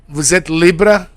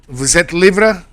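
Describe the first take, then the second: The two takes are said the same way.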